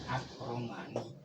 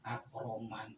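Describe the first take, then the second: First: The word ends with a final vowel. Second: The word ends on a bare consonant. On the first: The speaker calls it right. "harus dibaca" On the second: The speaker calls it wrong. "Jangan sekali-kali mewakafkan As-Roman, salah tuh"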